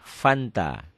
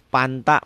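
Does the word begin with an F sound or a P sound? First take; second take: F sound; P sound. First: The word begins with an F sound. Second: The word begins with a P sound. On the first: This is how the word should be said. The speaker calls it right. "Padahal F" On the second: A Sundanese speaker is being imitated. The speaker calls it wrong. "Coba tanya orang Sunda"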